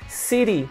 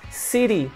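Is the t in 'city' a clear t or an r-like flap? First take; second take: r-like flap; r-like flap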